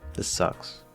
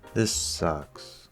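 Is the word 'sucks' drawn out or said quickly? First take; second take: quick; drawn out. First: The word 'sucks' is short and quick. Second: The word 'sucks' is slow and drawn out. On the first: "Instead of" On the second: "it's sort of being drawn out"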